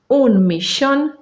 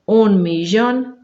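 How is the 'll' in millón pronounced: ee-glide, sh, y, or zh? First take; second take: sh; zh. First: The ll sounds like sh. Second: The ll sounds like zh in measure. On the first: This is the River Plate regional pronunciation. "Pode ser como X, que é a pronúncia rioplatense" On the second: This is used in other parts of Argentina, Uruguay and Paraguay. "também temos a pronúncia G"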